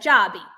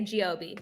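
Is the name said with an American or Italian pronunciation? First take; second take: Italian; American. First: The name is said with an Italian pronunciation. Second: The name is said with an American pronunciation. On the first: "Italians will say like Jobby" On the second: "Americans will say Giobi"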